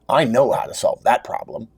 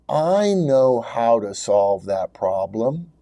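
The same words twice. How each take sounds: First: It sounds quick, loud and certain. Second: It sounds quiet, reserved and doubtful.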